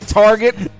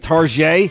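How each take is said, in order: First: The word is pronounced in an American style. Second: The word is pronounced in a French style. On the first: The speaker calls it right. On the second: The speaker calls it wrong. "I've heard people say target. It's not French"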